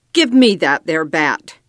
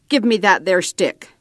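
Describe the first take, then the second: First: Louder, angry cowboy demand; storming. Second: A lightly voiced cowboy's curt order. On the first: Red angrily demands the bat after Chappie strikes out, louder. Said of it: "Red stormed". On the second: Chappie orders the boy to hand him the bat, mildly gruff. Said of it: "Chappie ordered". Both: A narrator's reading.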